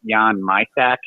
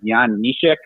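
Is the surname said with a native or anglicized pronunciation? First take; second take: anglicized; native. First: The surname has an anglicized English pronunciation. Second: The surname has its native Czech pronunciation. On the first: "when he came over to the O H L and they pronounced it" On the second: "the real way you pronounce his name is"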